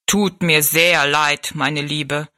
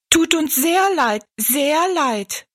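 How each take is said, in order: First: Slow, stately low giant; regretful giant. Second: High little dwarf voices; echoing dwarfs. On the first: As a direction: draw out the apology ponderously. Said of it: "wiederholte der Riese". (bedauernder, gedehnt sprechender Riese) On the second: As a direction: chirp the apology like tiny people. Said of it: "echoten die Zwerge". (hohe, piepsige Zwergenstimmen) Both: A narrator's reading.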